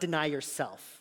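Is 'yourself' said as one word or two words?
one word. Yourself is run together as one word. The speaker calls it wrong. "like one word"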